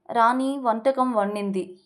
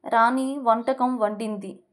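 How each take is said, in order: Both takes have the same delivery.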